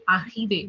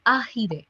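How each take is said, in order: First: "arrive" with a French throaty R, ah-ree-veh; "arrive" said as in French, guttural R in the middle; French pronunciation. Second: "arrive" again with the throaty French R; French pronunciation. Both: Shown as a demonstration. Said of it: "So the pronunciation is arrive".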